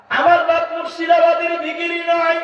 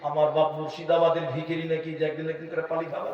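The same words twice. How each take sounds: First: Much higher and louder, a fiery proclamation; preacher shouting the point home; shouted preaching. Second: Said in the usual way. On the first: Shown as a demonstration. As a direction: thunder it at the crowd. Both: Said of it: "repeated louder".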